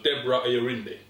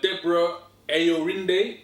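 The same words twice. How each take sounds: First: The name is said quickly and confidently. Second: The name is said slowly and carefully.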